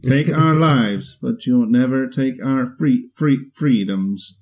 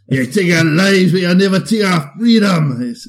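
First: A flat synthesized computer voice delivers the line. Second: A rousing battle-cry voice delivers the line. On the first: "Now do that in the Stephen Hawking voice" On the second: "I just had this impression of like a Braveheart robot"

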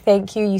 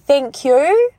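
First: It is said without a marked Kiwi accent. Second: It is said in a strong Kiwi accent. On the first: "when you say thank you" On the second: "say thank you"

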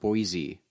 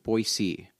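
First: The middle consonant is a buzzing z sound. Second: The middle consonant is a soft s sound. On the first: This marks someone as an outsider. The speaker calls it wrong. "not Boise" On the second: This is how the locals say it. The speaker calls it right. "I now know that it's pronounced Boise"

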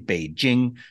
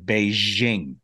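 First: The middle consonant is a hard J sound. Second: The middle consonant is a soft 'zh' sound. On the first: The speaker calls it right. "It's just straight J. There's no ZH sound" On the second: The speaker calls it wrong. "They zhuzh it up"

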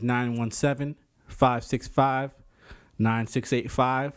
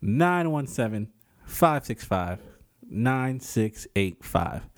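First: The number is said fast. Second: The number is said slowly.

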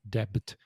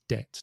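First: The word is said with a B sound. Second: The word is said without any B sound. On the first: The speaker calls it wrong. "not debit" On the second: The speaker calls it right. "The B is not pronounced. So it's debt"

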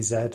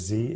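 First: The letter is said the British way, as zed. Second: The letter is said the American way, as zee.

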